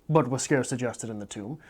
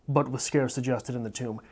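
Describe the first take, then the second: No difference in how they are said.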